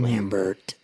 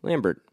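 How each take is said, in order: First: Lambert with a silent t, French style; French pronunciation. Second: Lambert with a hard t at the end; American pronunciation. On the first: Retold or imitated. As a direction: say Lambert like the actor himself. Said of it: "That's how he says his own name". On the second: Shown as a demonstration. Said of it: "I call him Lambert".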